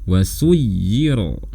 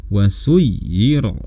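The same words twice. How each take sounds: Both takes have the same delivery.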